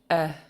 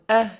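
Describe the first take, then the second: First: The vowel is said on a low tone. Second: The vowel is said on a high tone. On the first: "a single low E" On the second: "And high tone"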